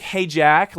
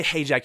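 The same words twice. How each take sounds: First: Brighter and louder, rising on Jack; attention-getting call. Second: Said in the usual way. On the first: Retold or imitated. Friend corrects the quote, calling his name up high. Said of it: "trying to get my attention". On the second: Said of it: "no, you didn't say".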